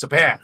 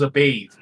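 First: "bath", short vowel and unvoiced ending; corrected to BATH. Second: "bathe" with a long ay, in place of bath; "bathe", long vowel and voiced th. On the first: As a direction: correct her with "bath", rhyming with math. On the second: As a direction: quote her slip, "bathe" rhyming with lathe. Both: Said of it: "She mixes up bath".

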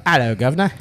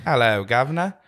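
First: Put-on Cockney greeting accent; English accent. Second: English accent slipping toward New Zealand; botched English accent. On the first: Host showing co-host an English line, Cockney accent. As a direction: say it like a London Cockney. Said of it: "So you can't say, like". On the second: Co-host failing to copy host's English, New Zealand-tinged accent. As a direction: try Cockney, land half in New Zealand. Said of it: "It sounded kinda New Zealand". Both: Shown as a demonstration.

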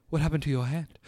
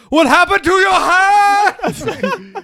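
First: Said in the usual way. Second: Much higher, louder, slow mock wail; hammed-up shriek. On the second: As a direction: overplay the concern. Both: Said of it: "It's like".

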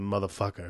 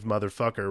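First: "motherfucker" ending in a plain "uh", no R; non-rhotic "motherfucka" ending; R dropped at end. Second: "motherfucker" with a clear final R; R pronounced at end. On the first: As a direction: drop the final R of "motherfucker". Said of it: "rather than motherfucker". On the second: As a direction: sound the R that ends "motherfucker". There's an R on the end. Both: Shown as a demonstration.

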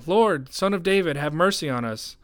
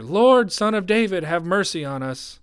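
First: Raised, pleading cry for mercy; shouting. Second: High, loud, urgent plea; shouting louder. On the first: Two blind men call to Jesus as he passes, shouting. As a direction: call out high, easing toward the end. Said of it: "they began shouting". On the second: Blind men defy the crowd and plead, shouting louder. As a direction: cry out at the top, easing toward the end. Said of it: "they only shouted louder". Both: A narrator's reading.

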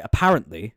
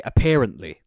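First: "apparently" said uh-PARR-ent-lee; short a, as in "cat", in "apparently"; usual pronunciation. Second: "apparently" said uh-PAIR-ent-lee; stressed "pair" sound in "apparently"; relation's pronunciation. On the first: Host describing a relation's avoided form, "apparently" as uh-PARR-ent-lee. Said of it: "relation who doesn't say". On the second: Host showing how a relation says it, "apparently" as uh-PAIR-ent-lee. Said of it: "they say". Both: Shown as a demonstration.

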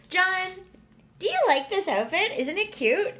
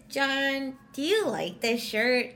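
First: High, lilting, leading question; liking-it tone. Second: Not-liking-it tone. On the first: Woman showing John she likes the outfit, high leading tone. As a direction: ask it high and eager, fishing for a yes. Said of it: "exactly how you could tell if I like". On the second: Woman cueing John to dislike the shirt, unenthused tone. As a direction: ask it unenthused, signalling the answer is no. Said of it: "If I went like this". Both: Shown as a demonstration.

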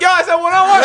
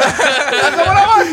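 First: Much higher, loud mock yell; retold shout. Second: Laughing. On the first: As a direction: yell it indignantly at the bouncers. Retold yelling as bouncers rush. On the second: Real, not acted. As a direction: repeat it while cracking up, high and loud. Repeat dissolving into laughter.

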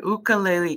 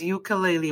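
First: "ukulele" begun with an oo sound; "ukulele" without any y sound at the start; Hawaiian-style pronunciation. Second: "ukulele" begun with a yoo sound; "ukulele" with a y sound at the start; everyday English pronunciation. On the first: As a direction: say "ukulele" as oo-koo-leh-leh. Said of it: "you pronounce the one instrument". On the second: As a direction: say "ukulele" as yoo-kuh-lay-lee. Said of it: "the way I grew up saying it". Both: Shown as a demonstration.

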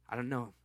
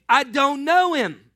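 First: Low, softer denial; a nervous fisherman denying quietly. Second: Loud, higher, slower denial; a fisherman losing his temper; shouted denial. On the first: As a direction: mutter it, cornered. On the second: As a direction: shout it back at her. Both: Acted.

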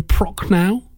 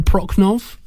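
First: Prochnow ending in an open "ow"; tentative Prochnow, final syllable rhyming with "now"; first attempted pronunciation. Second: Prochnov ending in a "v" sound; tentative Prochnov, final syllable "nov" instead of "now"; alternative pronunciation. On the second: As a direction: close Prochnov on an audible "ov". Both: Shown as a demonstration. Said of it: "on the pronunciation of his name".

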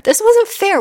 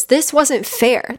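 First: Much higher, louder, near a wail; second take, bursting out; child's outburst. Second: Put-on slow, higher, complaining like a child; first take, held back; hurt child protest. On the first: Retold or imitated. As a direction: let the child cry out. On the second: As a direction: drag it out like a hurt kid. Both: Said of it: "that little kid you that's just like".

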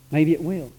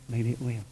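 First: Said in the usual way. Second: Softer, lower repeat trailing away; fading echo. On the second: Real, not acted. Preacher echoing his hope to himself, quietly. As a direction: let the second one fall away to almost nothing. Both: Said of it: "repeated with fading hope".

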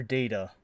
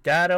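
First: "data" with its first syllable like "day"; DATA as "dayta". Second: "data" rhyming its first syllable with "cat"; DATA as "datta". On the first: Reading out a listener's either-or question, "data" as "dayta". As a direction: say "data" with a long A, "DAY-tuh". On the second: Reading out a listener's either-or question, "data" as "datta". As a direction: say "data" with a short flat A, "DAT-uh". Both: Shown as a demonstration. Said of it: "just the pronunciation".

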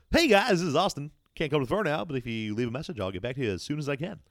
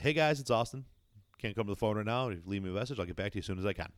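First: Loud, high customer service voice, easing off; Austin. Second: Toned-down voicemail greeting; Austin. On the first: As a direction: imitate an over-chirpy voicemail greeting. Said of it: "his customer service voice". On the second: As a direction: imitate an easygoing, understated phone message. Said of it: "a little bit more toned down". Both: Retold or imitated.

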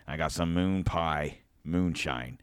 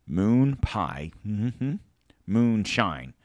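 First: Said in the usual way. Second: Emphatic repeat. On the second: Shown as a demonstration.

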